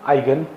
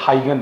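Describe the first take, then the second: First: The name begins without an h sound. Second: The name begins with an h sound. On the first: This is how the name is said abroad. "एच silent" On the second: This is how people in India say it. "We Indian call it as हाइगन principal"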